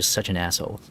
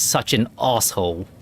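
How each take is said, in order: First: It is said in an American accent. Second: It is said in a British accent. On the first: "the American" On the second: "you switch to us"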